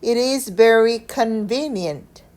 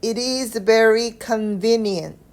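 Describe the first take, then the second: First: Slow reading with "convenient" accented as the key word; stress on CONVENIENT. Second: "it is very convenient" run together slowly, no breaks between words; linked without pauses. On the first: Teacher rereading for learners to mark the important word, stressed "convenient". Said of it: "convenient 중요한 내용의 강세를 찍어서". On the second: Teacher showing learners how to link the sentence, slow connected reading. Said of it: "연결해서 읽어볼게요. 쉼 없이". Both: Shown as a demonstration.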